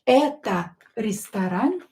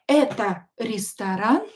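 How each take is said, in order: First: It is said with questioning intonation. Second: The same.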